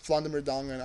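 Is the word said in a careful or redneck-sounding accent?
careful. It is said carefully without the redneck-sounding accent. The speaker calls it right. "I'm pretty sure that's how you pronounce it"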